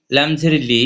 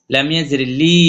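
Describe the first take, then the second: First: Final লি kept short; recited spelling with a brief লি; short vowel. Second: Recited spelling with a long লি; long madd vowel. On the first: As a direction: say লি without stretching. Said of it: "হরকত উচ্চারণ তাড়াতাড়ি পড়বো". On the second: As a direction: stretch the vowel of লি. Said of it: "এক লিপ টেনে পড়বো". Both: Shown as a demonstration.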